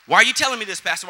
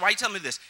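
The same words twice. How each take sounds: First: Mock question. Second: Said in the usual way. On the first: Shown as a demonstration.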